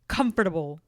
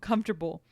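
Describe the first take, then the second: First: The word is pronounced an unusual, marked way. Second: The word is pronounced the ordinary way. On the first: This is how the grandmother says it. "She says it like this" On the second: This is how people usually say it. "I'm going to say it normal"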